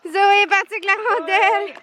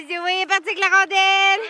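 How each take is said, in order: First: High, bright repeated call; excited. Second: Excited. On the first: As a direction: shout it out delighted. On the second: Dog runs off with puck. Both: Real, not acted.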